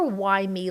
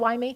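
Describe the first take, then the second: First: It is asked in a bitter, self-pitying tone. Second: It is asked in a plain, factual tone.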